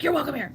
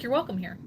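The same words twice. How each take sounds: First: It is said in an aggressive tone. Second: It is said in a gentle, sincere tone.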